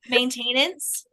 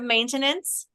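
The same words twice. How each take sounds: First: The middle syllable sounds like 'tain' in maintain. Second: The middle syllable is a short reduced 'ten'. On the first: This is how the grandmother said it. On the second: This is the usual way of saying it.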